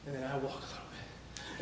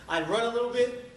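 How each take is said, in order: First: Dropped low and soft; subdued walking take. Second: Higher, louder, pushing upward; energetic running take. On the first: Runner recounts slowing to a walk, low and subdued. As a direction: let the voice sag lower and quieter. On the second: Runner recounts the last ten miles, voice raised and pushing. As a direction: lift the pitch and push, as if running. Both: Retold or imitated. Acts out running versus walking.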